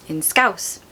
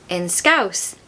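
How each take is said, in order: The two takes are said the same way.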